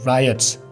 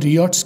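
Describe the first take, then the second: First: The first vowel is an 'eye' sound. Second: The first vowel is a plain ee-aw sound. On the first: The speaker calls it right. "गोरे से रायट्स कहेंगे" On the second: The speaker calls it wrong. "इसको local में रियॉट्स कहते हैं"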